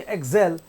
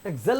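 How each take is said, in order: First: एक्सेल with a long AY in the second syllable; low एक्सेल, last syllable held; drawn-out vowel. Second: एक्सेल with a brief 'zel'; एक्सेल said without any stretch; wrongly short vowel. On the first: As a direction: stretch the end vowel of एक्सेल a little. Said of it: "तो खींच रहे थोड़ा सा". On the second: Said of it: "एक्सेल नहीं है". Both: Shown as a demonstration.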